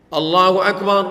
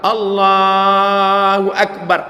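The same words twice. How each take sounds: First: It is said short and quick. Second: It is drawn out long.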